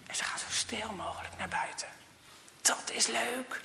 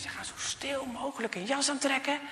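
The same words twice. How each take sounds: First: Hushed whisper, as if sneaking. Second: Said in the usual way. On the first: A narrator's reading. Telling the children how they sneak outside, in a whisper. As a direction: whisper it so nobody hears.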